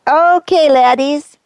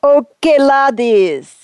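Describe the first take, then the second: First: A Scottish-sounding attempt at an American accent; fake accent. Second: Put-on a second, lighter go at the wrong Scottish-ish accent; fake accent again. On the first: Saint trying to sound American, slipping into a wrong accent. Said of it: "sound like an American". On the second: Saint's second attempt at an American voice, still a wrong accent. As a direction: try the accent once more, still off. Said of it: "try it again".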